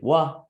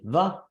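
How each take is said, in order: First: The syllable starts with a W sound. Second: The syllable starts with a V sound. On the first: "it could be wa" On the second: "it could be va"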